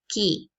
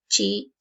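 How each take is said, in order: First: It is said with the Italian ch sound. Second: It is said with the Spanish ch sound. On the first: The speaker calls it right. "sino se pronuncia chi" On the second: The speaker calls it wrong. "el chi en italiano no se pronuncia chi"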